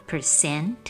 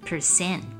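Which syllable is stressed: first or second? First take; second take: second; second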